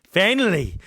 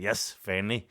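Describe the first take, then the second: First: "finally" cried out higher and louder; a loud, relieved "finally" with a falling end; "finally" as a giddy outburst; excited. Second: Said in the usual way. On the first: Retold or imitated. Buzzing at finally losing virginity.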